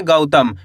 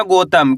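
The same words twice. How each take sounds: First: गौतम said "गउतम" with an open au glide; गौतम with a clear औ diphthong, falling; teacher's correct गौतम, au opened wide; correct au sound. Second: गौतम said as "गोतम" with a plain o; गौतम mispronounced as gotam on purpose; wrong o sound. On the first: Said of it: "क्योंकि गा के अंदर औ की मात्रा है". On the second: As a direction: demo the wrong गौतम with o instead of au. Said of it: "ऐसे नहीं पढ़ना". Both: Shown as a demonstration.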